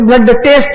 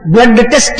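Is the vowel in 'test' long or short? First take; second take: long; short. First: The vowel in test is long. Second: The vowel in test is short. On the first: The speaker calls it wrong. "ಹ್ರಸ್ವ ದೀರ್ಘಗಳೂ ಗೊತ್ತಿಲ್ಲದಂತಹ ಜನ" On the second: The speaker calls it right. "ಟೆಸ್ಟ್ ಅನ್ನುವುದನ್ನ"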